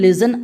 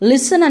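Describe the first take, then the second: First: The middle consonant is a buzzing z sound. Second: The middle consonant is a hissing s sound. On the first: The speaker calls it wrong. "లిజన్ అనకూడదు" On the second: The speaker calls it right. "లిసన్ అని పలకాలి"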